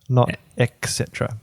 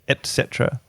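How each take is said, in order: First: The first word is said with a ks sound. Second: The first word is said with a t sound. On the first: The speaker calls it wrong. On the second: The speaker calls it right. "you should say et cetera"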